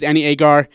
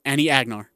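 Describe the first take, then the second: First: "Agar" said AY-gar with no n; corrected name. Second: "Agnar" with a hard g and n before the r; mispronounced name. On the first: Real, not acted. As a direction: say "Agar" cleanly, two syllables, no n. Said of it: "Oh, it's Agar". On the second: Retold or imitated. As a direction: say "Agnar", stressing AG, sounding the n. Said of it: "and I call her Agnar".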